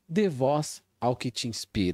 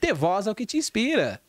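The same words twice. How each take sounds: First: It is said flatly, with little energy. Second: It is said with lively energy. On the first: The speaker sounds uninterested. The speaker calls it wrong. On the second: The speaker sounds enthusiastic. The speaker calls it right.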